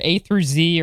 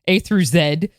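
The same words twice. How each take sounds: First: Z is said the American way, zee. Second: Z is said the British way, zed.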